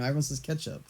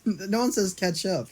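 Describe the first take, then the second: First: "ketchup" as KETCH-up, softer. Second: "ketchup" as CATCH-up, higher and slower; catch-up form. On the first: Stating the common form, "ketchup" as KETCH-up. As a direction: say "ketchup" with the e of "get". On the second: Repeating what no one says, "ketchup" as CATCH-up. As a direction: say "ketchup" with the a of "cat". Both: Shown as a demonstration. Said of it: "It's got an E in it".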